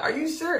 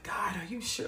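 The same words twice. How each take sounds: First: High-pitched disbelieving question; mock-incredulous, high and rising. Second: Hushed, whispered plea to God; acted whispered double-check; doubtful whisper. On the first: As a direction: squeak up high in acted disbelief. Repeats the doubt to God, incredulous. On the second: Retells doubtful private talk with God.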